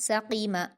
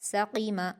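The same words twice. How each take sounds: Both takes have the same delivery.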